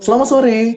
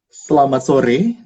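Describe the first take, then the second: First: It is said at a higher pitch. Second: It is said at a lower pitch.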